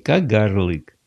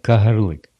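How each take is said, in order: First: The name is pronounced the Russian way. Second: The name is pronounced the Ukrainian way. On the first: The speaker calls it wrong. "Не Кагарлык" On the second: The speaker calls it right. "надо говорить по-украински"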